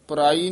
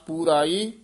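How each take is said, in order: First: The first vowel is short and reduced. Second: The first vowel is drawn out long. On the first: The speaker calls it wrong. "ਪਰਾਈ ਨਹੀਂ ਕਹਿਣਾ" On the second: The speaker calls it right. "ਦੀਰਘ ਉਚਾਰਨ ਕਰਨਾ"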